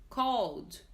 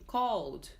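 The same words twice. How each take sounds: No difference in how they are said.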